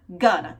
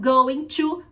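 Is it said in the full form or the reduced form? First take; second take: reduced; full. First: The words are reduced and run together. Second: Both words are said fully and separately.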